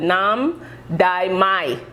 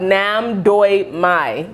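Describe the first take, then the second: First: The middle syllable sounds like 'die'. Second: The middle syllable sounds like 'doy'. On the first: The speaker calls it wrong. "I think it's not pronounced that way" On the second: The speaker calls it right. "It's actually called Nam Doi Mai"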